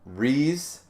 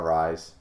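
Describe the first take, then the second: First: The name is said with an 'ee' vowel. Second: The name is said with an 'eye' vowel. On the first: "a double E, like Reese's Pieces" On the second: "I call her Rise"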